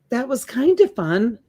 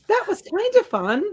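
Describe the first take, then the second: First: It is read in a plain adult voice. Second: It is read in a high childlike voice. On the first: The speaker calls it wrong. "You read it wrong" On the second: The speaker calls it right. "raise your voice and say it like a little kid"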